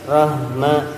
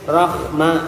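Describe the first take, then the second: First: The h carries a vibration from the chest. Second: The h has a slight raspy, hoarse scrape. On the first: "Jangan ada getaran di dada" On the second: "ada serak-seraknya dikit"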